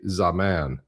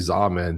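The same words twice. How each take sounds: First: The name ends with a distinct word 'man'. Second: The name is said without a distinct 'man' ending. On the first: "like it's a man named Za" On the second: "we say Zaman"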